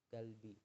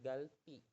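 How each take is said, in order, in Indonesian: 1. Konsonan tengahnya b lembut. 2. Konsonan tengahnya p tegang. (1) "masih tetap dibacanya galbi" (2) "bukan bukan galpi"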